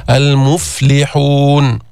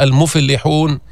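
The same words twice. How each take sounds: First: المفلحون with a still ف, drawn out slowly. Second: المفلحون with a vowel after the ف; voweled fa error. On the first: Teacher models the correct still ف. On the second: Teacher imitates a student's error for the class. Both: Shown as a demonstration. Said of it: "سكن الفاء".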